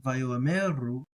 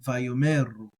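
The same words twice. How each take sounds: First: Slow Vayoameru, the Aleph given its own short a; Aleph pronounced. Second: Vayomeru with the Aleph dropped, o gliding into m; silent Aleph. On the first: Teacher repeating Vayoameru with the Aleph sounded. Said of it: "this is with it not silent". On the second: Teacher repeating Vayomeru with the Aleph silent. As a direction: say Vayomeru smoothly, no Aleph sound. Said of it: "and then with it silent". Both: Shown as a demonstration.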